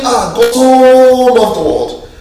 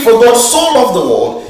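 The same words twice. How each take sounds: First: So stretched as "so much"; slow, so drawn out for emphasis; stress on so. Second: Said in the usual way. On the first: Shown as a demonstration. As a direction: lean on so as intensity. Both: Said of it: "you are thinking".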